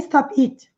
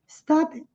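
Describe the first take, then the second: First: The stress falls on the final word. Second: The stress falls on the first word. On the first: The speaker calls it wrong. "não é stop it" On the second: The speaker calls it right. "a ênfase está no stop"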